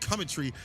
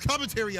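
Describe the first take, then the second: First: It is said in a British accent. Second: It is said in an American accent.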